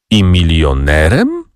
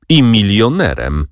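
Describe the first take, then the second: First: Slow, questioning echo of milionerem; mild astonished question; surprised repeat. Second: Said in the usual way. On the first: A narrator's reading. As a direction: echo it back in disbelief, rising on milionerem. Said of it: "powtórzyła panna Izabela". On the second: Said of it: "dodała panna Florentyna".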